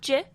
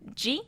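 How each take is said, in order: First: The syllable ends without an 'ee' vowel. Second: The syllable ends with an 'ee' vowel. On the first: The speaker calls it wrong. "not J" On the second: The speaker calls it right. "the letter I always represents the E sound"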